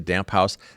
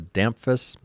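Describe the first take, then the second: First: The name sounds like the words damp house. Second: The name rhymes with the word Memphis. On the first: "sometimes people will say Damp House" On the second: "pretty easy if you think about the word Memphis"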